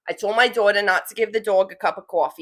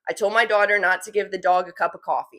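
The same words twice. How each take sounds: First: It is said in a heavy New York accent. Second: It is said in her normal accent.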